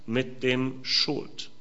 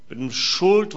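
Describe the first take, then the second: First: Slow, softer, trailing off; said quietly and slowly, "dem" rising; quiet aside. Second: "Schuld" raised and weighted, rising; stress on Schuld. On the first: (leise und langsam, "dem" steigend) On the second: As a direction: repeat it, leaning on "Schuld". (Betonung auf "Schuld", höher und steigend) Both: Shown as a demonstration.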